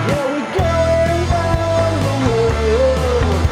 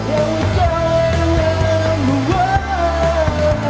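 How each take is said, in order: Both takes have the same delivery.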